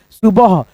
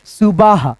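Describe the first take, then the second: First: "सुबह" with a short second vowel, su-bah; correct pronunciation. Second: "सुबह" stretched to su-baah, as सुबाह; wrong long vowel. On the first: Teacher reads the spelt word, "सुबह" with short second vowel. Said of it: "नहीं सुबह होता है". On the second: Teacher tests an added matra, "सुबह" mispronounced as सुबाह. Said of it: "तो आ की मात्रा नहीं लगेगा". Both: Shown as a demonstration.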